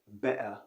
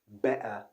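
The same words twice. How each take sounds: First: It is said with a British accent. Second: It is said with a British accent.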